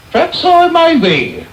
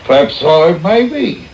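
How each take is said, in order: First: PERHAPS I MAY BE lifted much higher, preening; pompous self-satisfied repeat. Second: Said in the usual way. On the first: Acted. Beadle basking in the matron's praise, pompous higher repeat. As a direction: savour the flattery, pitch leaping up.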